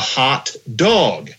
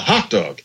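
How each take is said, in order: First: The stress falls on the word dog. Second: The stress falls on the word hot. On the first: This is an old-fashioned way of saying it. "talking about eating a hot dog" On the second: This is the usual modern way of saying it. "rather than a hot dog"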